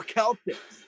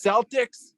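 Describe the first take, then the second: First: Celtics said with a hard K, as in "Keltics". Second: Celtics said with a soft S, as in "sell". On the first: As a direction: say Celtics starting with a K sound, KEL-tiks, pitched a little higher. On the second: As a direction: say Celtics starting with an S sound, SEL-tiks. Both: Shown as a demonstration. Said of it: "is it pronounced".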